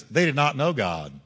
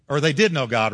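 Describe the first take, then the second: First: Said in the usual way. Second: Did pushed louder as the correction; stress on did. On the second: Shown as a demonstration. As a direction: hit the word did to fix the line.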